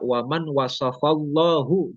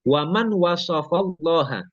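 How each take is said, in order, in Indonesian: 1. Kata untuk Allah berakhir dengan vokal 'u'. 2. Kata untuk Allah berakhir dengan vokal 'a'. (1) "Jangan dibaca waman wasafallahu" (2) "Jangan salah harokat"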